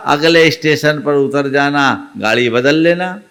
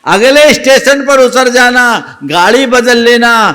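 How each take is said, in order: First: Said in the usual way. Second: Higher, louder insistent advice; emphatic advice. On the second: A narrator's reading. Old woman urging the youth to change trains, in a loud high insistent voice. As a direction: insist firmly that he switch trains.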